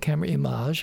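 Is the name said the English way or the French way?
French. The name is said with a French pronunciation. It sounded good to the speaker. The speaker calls it wrong. "I was going with the French"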